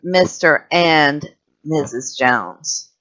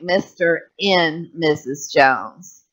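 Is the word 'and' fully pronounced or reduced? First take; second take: fully pronounced; reduced. First: The word 'and' is fully pronounced with its sounds. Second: The word 'and' is reduced and unstressed. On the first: This is a careful, slow delivery. "instead of" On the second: This is how it sounds in everyday conversation. "So it sounds more like"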